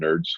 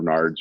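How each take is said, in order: First: The vowel sounds like the one in 'nerds'. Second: The vowel sounds like the one in 'nards'. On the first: "somehow we call it NERDS" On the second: "instead of NARDS"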